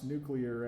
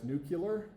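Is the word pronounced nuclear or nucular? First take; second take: nuclear; nucular. First: It is said the standard way, new-klee-er. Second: It is said the dialect way, new-kyuh-ler. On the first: "we can now pronounce nuclear as" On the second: "I think that's a legitimate dialectical pronunciation now"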